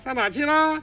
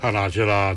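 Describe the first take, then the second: First: It is voiced high with head resonance. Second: It is voiced low with chest resonance.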